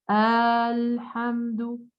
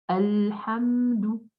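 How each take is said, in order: First: The first vowel is drawn out long. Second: The first vowel is kept short. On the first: The speaker calls it wrong. "Je ne dois pas dire Alhamdu" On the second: The speaker calls it right. "la fatha qui est courte, que je ne dois pas prolonger"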